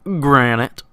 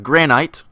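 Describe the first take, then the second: First: It is said in an American accent. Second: It is said in a non-American accent.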